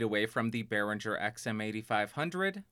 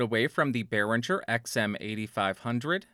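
First: The voice is farther, with more room sound. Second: The voice is close, with little room sound. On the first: "about 2 feet away" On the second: "About 1 foot away"

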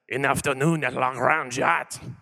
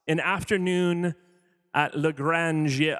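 First: It is said in a French accent. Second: It is said in his plain accent.

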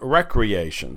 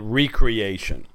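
First: The word is said quickly, as one unit. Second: The word is said slowly, drawn out in parts. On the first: It means leisure or play. "rather than recreation" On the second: It means being created anew or refreshed. "slowed down that word or emphasize that word in a different way"

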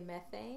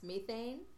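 First: It is said the way the speaker's country says it. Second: It is said the way the British show says it. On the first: "We would say methane" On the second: "I know that it's pronounced methane in the show"

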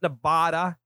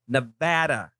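First: Nevada is said the way outsiders say it. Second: Nevada is said the way locals say it. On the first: The speaker calls it wrong. "Not Nevada" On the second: The speaker calls it right. "Nobody from Nevada pronounces it Nevada. It's Nevada"

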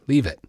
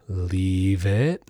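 First: It is said level and firm, without dipping. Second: The pitch dips down in a wavering way.

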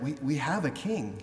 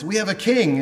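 First: It is said with shaken, faltering hope. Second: It is said with strong confidence.

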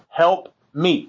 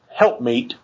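First: It is split into two separate words. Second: It runs together as one word. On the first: The speaker calls it right. "There's two words there" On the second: The speaker calls it wrong. "not help meet"

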